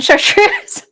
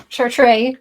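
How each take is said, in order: First: Chartreuse slowly as shar-TROOZ, the wrong way; wrong pronunciation. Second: Chartreuse said shar-TRAY, the proper way; correct pronunciation. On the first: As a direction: Chartreuse with ending OOZ, rising, mistaken. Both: Shown as a demonstration. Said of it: "not Chartreuse".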